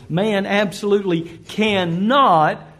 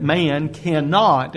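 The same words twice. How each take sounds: First: "absolutely cannot" slow, each word firmly stressed; emphatic CANNOT. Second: Said in the usual way. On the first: Shown as a demonstration. Preacher restating a disputed claim, heavy stress on "cannot". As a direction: lean hard and slowly on "cannot". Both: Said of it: "let me emphasize that word".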